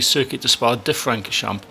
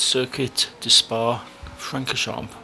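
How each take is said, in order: First: An extra 'de' comes before 'Francorchamps'. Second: 'Spa' runs straight into 'Francorchamps'. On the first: The speaker calls it wrong. "I actually say" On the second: The speaker calls it right.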